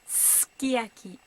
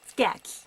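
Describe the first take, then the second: First: The first syllable keeps its full length. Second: The first syllable is clipped short. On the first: The speaker calls it right. "but sukiyaki" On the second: The speaker calls it wrong. "it shouldn't be sukiyaki"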